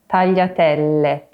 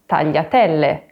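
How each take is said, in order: No difference in how they are said.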